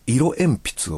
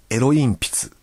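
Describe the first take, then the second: First: Said in the usual way. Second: Niigata dialect swapping i and e in "エロ鉛筆"; Niigata accent. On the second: Shown as a demonstration. Radio host demonstrating a listener's Niigata example, Niigata accent. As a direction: say "エロ鉛筆" Niigata-style, as "ero-inpitsu". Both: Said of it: "新潟弁でなまって言うと".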